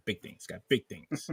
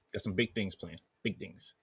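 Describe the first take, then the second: First: Lightly voiced Roger from American Dad; a hint of Roger's voice. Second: Bad Peter Griffin impression; lightly voiced Peter Griffin. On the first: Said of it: "No, Roger". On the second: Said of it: "I sound like bad Peter Griffin".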